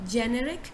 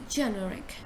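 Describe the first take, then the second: First: The first syllable does not sound like 'jo'. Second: The first syllable sounds like 'jo'. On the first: The speaker calls it wrong. "Instead of saying generic" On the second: The speaker calls it right. "you say generic. Jo, you you say jo"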